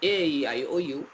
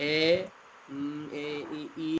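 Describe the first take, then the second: First: The letters come quickly in one smooth run. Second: The letters come slowly, with hesitant breaks. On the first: The speaker calls it right. "এভাবে তাড়াতাড়ি বলতে হবে" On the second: The speaker calls it wrong. "এইভাবে বললে হবে না"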